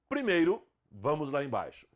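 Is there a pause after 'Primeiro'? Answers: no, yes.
yes. There is a short pause after the first word. "com vírgula"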